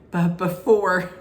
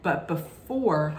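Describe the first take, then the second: First: Slow, loud and drawn out; dramatic suspense. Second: Said in the usual way. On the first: Shown as a demonstration. Teasing the audience about who arrives, slow and dramatic. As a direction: stretch it out to build suspense.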